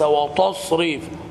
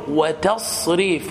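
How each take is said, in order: First: The t sound is heavy and emphatic. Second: The t sound is plain and light. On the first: The speaker calls it wrong. "جعلتم التاء طاء وهذا لحن" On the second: The speaker calls it right. "فتقول وتصريف"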